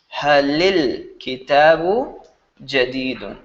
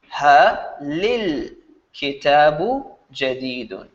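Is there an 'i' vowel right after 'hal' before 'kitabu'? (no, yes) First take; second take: yes; yes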